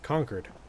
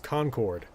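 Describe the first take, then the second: First: It is said the way the town's name sounds. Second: It is said like the ordinary word concord. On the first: This is the name of the town. "the pronunciation of the town is Concord" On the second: This is the ordinary English word. "the word is Concord"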